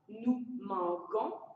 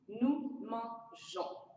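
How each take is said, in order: First: The g is said hard, like g in go. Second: The g is said soft, like s in measure. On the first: The speaker calls it wrong. "on ne dit pas nous manquons" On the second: The speaker calls it right. "Avec E, on dit nous mangeons"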